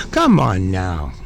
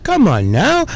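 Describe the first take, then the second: First: A deep, slow, fed-up come on now; exasperated groan. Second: Said in the usual way. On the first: Real, not acted. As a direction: come on now dropped very low and slowed. Drawn out, much lower repeat.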